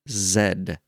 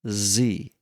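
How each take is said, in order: First: The letter name ends in an ed sound. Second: The letter name ends in an ee vowel. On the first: The speaker calls it wrong. "but it ain't Zed" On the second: The speaker calls it right. "this is pronounced Z. Just Z"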